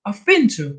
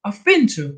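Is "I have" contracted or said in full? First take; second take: contracted; contracted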